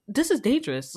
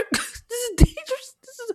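First: Said in the usual way. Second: Higher, laughing through this is dangerous. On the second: Shown as a demonstration. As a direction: laugh while saying this is dangerous.

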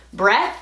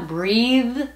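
First: "breath" with short e and airy th; "breath" ending without voice; silent th. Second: "breathe", higher, long ee and buzzing th; "breathe" with a humming final th; voiced th. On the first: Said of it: "con T H silenciosa". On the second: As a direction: keep the voice on through th in "breathe". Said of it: "con un poquito de voz". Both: Shown as a demonstration.

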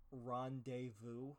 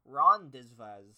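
First: "Rendezvous" slow and soft, ending "vu"; quiet, careful French "Rendezvous"; proper French. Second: "Rendezvous" slow and loud, every letter sounded; slow, louder "Rendezvous" with each letter said; spelled-out reading. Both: Shown as a demonstration. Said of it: "You're pronouncing R".

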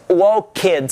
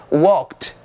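First: "walked" split in two, walk-KED, with a full "ed"; wrong -ed as extra syllable. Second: "walked" in one syllable, ending in a light T sound; correct soft -ed. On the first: English teacher showing students the mistake, "walked" with an added syllable. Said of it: "Você não diz walked". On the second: English teacher showing students how it is said, "walked" as one syllable. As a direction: say "walked" as "walkt", the E silent. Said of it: "você diz walked". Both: Shown as a demonstration.

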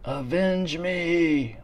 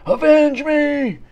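First: Slow, strained dying plea; overacted death scene. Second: Slow, much higher, louder dying cry; overacted death scene. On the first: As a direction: groan it out like a dying king. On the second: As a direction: wail it like a hammy movie death. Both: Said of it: "like in fucking Red Dawn".

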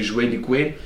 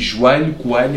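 First: "joelho e coelho" with an open "é" before lh; non-Lisbon pronunciation. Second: "joelho, coelho" with a Lisbon "â" before lh; slow Lisbon demo of "joelho, coelho"; Lisbon pronunciation. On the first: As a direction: say "joelho e coelho" as "juélho e cuélho". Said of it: "em vez de dizer". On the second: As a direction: say "joelho, coelho" as "juâlho, cuâlho". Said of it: "come sílabas em tudo o que é palavra". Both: Shown as a demonstration.

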